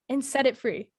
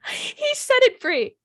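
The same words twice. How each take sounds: First: Said in the usual way. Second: "He set it free" said high and slow, with "set" punched; stress on set. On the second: Real, not acted. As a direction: draw out "He set it free" in disbelief, leaning on "set".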